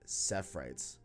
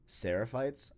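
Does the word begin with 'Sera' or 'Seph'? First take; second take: Seph; Sera. First: The word begins with 'Seph', two syllables. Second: The word begins with 'Sera', three syllables. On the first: The speaker calls it wrong. "as if it was S-E-P-H" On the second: The speaker calls it right. "I've read Seraphites"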